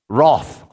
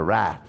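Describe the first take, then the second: First: It is said in a non-American accent. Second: It is said in an American accent.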